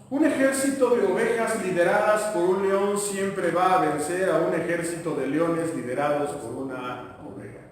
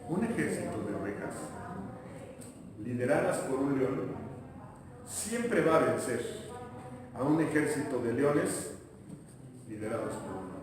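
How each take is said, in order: First: It is said at normal speed. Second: It is said slowly.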